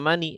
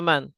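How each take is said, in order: First: The word ends in an i vowel. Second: The word ends in n with no vowel. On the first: The speaker calls it wrong. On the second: The speaker calls it right. "selalu dibaca man"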